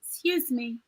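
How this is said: It sounds gentle and polite. The speaker kindly asks to get past. The speaker calls it right. "Change my tone. Now I say it better"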